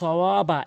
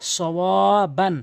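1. শব্দটি লম্বা 'আ' ধ্বনি দিয়ে শেষ হয়। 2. শব্দটি 'আন' ধ্বনি দিয়ে শেষ হয়।

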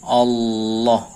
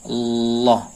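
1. Bunyi tengahnya L lidah yang jelas. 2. Bunyi tengahnya L lidah yang jelas.

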